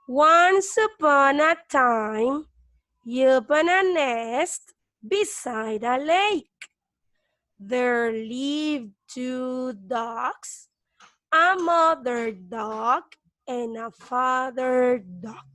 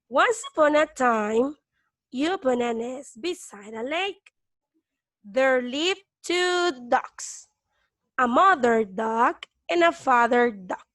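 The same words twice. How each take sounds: First: It is read slowly. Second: It is read at normal speed.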